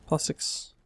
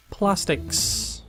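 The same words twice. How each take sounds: First: Plastics whispered to himself; whispering. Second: Said in the usual way. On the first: Real, not acted. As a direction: breathe the word plastics unvoiced.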